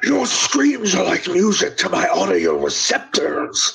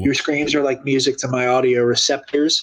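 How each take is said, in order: First: It is said in an impression of Grievous. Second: It is read in the speaker's normal voice.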